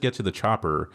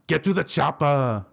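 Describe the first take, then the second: First: The line is said plainly, without energy. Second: The line is said forcefully, with dramatic flair. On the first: The speaker calls it wrong. "it's not just "get to the chopper."" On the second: The speaker calls it right. "you gotta say it with flair"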